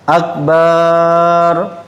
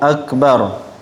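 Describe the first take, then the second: First: The second vowel of akbar is drawn out. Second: Both vowels of akbar are kept short. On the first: The speaker calls it wrong. "panjang ba-nya" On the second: The speaker calls it right. "hamzahnya pendek, ba-nya juga pendek"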